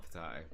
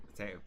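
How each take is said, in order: First: "potato" with AH in the middle; po-TAH-to. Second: "potato" with AY in the middle; po-TAY-to. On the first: Player rejecting the odd pronunciation, "potato" as puh-TAH-to. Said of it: "like, potato, potato". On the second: Player correcting the pronunciation, "potato" as puh-TAY-to. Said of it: "It's not potato". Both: Shown as a demonstration.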